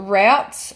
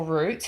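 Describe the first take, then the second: First: Routes rhyming with "outs"; alternative pronunciation. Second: Routes rhyming with "boots"; alternative pronunciation. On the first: Vlogger offering viewers either pronunciation, routes said as "rowts". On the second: Vlogger offering viewers the other pronunciation, routes said as "roots". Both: Shown as a demonstration. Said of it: "however you want to say that".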